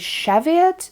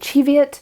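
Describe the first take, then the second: First: The word is said the other common way. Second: The word is said the Scottish way. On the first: This is how some other people say it. "some people say Cheviot" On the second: This is how people in Scotland say it. "he said that they say Cheviot"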